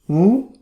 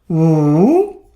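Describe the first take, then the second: First: The pitch rises from mid to high. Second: The pitch dips low and then rises. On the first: "Second tone" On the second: "Third tone"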